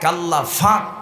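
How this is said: The second word begins with an f sound. "আল্লাহ ফাক হয় না"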